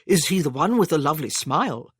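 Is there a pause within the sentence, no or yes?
no. It is said smoothly without a pause.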